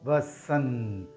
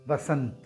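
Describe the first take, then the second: First: It is said slowly and drawn out. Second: It is said at normal speed.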